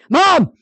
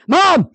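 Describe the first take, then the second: First: The call sounds frustrated and needy. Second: The same.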